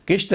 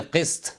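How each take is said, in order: First: 'किश्त' with sh before the t; wrong pronunciation. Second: 'किस्त' with throaty q and an s; correct Urdu pronunciation. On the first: Teacher rejects the common error, mispronounced. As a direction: say 'किश्त' as kisht, plain k. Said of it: "किश्त नहीं". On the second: Teacher gives the proper word, correctly pronounced. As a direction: say 'किस्त' as qist. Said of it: "इसको बोले किस्त". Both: Shown as a demonstration.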